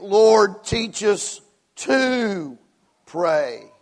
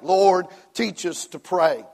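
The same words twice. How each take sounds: First: The stress is on the word teach. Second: The stress is on the word pray.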